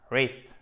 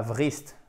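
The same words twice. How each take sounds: First: Wrist starting on r, short vowel; silent W, short I. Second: Wrist as vrist, low; wrong sounded W. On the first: Teacher correcting vrist, wrist with silent W. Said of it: "c'est un I court". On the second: Teacher warning learners, wrist wrongly said vrist. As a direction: add a V before the r of wrist. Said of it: "pas wrist". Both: Shown as a demonstration.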